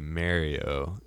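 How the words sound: It is said the Philadelphia-area way.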